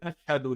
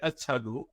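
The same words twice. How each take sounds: First: The word is said with an 'sh' sound. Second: The word is said with an 's' sound. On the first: "when he tried to say sheen" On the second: "he would say seen"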